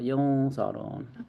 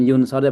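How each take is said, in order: First: The nasal before the s sounds like ng. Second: The nasal before the s is a clear n. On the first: The speaker calls it right. "tapi yung sor yung sorun. Kalau yang eng itu kalau depannya qaf sama kaf itu bacanya kayak eng gitu" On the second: The speaker calls it wrong. "bukan yun sorun"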